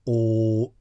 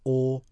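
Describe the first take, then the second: First: The vowel is held longer. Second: The vowel is held briefly.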